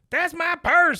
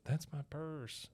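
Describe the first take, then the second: First: It is said loudly, with strong force. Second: It is said quietly, with little force. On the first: The speaker stands up for himself. The speaker calls it right. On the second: The speaker is afraid and unsure. The speaker calls it wrong.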